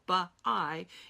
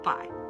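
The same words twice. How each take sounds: First: The word is split into two syllables. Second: The word is said as one syllable. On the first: The speaker calls it wrong. "we don't say" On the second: The speaker calls it right. "We say buy"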